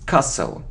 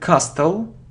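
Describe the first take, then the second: First: The t sound is silent. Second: The t sound is pronounced. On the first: The speaker calls it right. "we don't pronounce it" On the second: The speaker calls it wrong. "It isn't castle"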